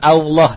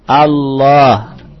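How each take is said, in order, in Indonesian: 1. Vokalnya membulat ke bunyi o. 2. Vokalnya bunyi a yang terbuka. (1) "Bukan Allah" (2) "tapi Allah. ingat-ingat Allah dengan fathah"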